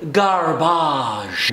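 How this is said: It is said with a French accent.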